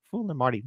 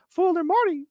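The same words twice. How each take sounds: First: Said in the usual way. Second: Very high squeaky cartoon mouse; Mickey Mouse voice. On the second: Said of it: "how about with Mickey".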